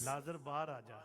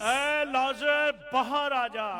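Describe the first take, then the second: First: It is said in a soft voice. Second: It is called out in a loud voice.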